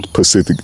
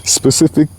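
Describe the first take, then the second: First: Specific. said low, settling with a firm falling tune. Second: Specific. lifting at the end like a question; rising tune. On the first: Checking his word choice aloud, Specific. low and falling. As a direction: land Specific. down low as the answer. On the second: Checking his word choice aloud, Specific. rising and unsure. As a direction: try Specific. again with an unsure rise. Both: Shown as a demonstration. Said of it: "is specific the word?".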